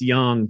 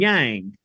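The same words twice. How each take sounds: First: Yang has a Chinese-style pronunciation. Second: Yang has a Southern American pronunciation. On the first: The speaker calls it right. "corrected me and said it's yang" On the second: The speaker calls it wrong. "now I'm going to mispronounce this, because that's how my southern roots told me to say it"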